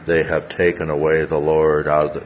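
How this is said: The voice is quiet and flat in pitch. The speaker calls it wrong. "she must have said it with a quiet monotone"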